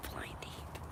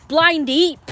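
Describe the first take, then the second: First: Blind Eep breathed in a voiceless whisper; whispered taunt. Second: Blind Eep yelled high and loud; loud taunt. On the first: Muttering at the dog Eep, whispered taunt. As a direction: hiss the same insult under your breath. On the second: Taunting the dog Eep for not seeing it, loud yell. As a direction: shout the insult at the dog. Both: Real, not acted. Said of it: "that stupid dog, you know, pissed me off".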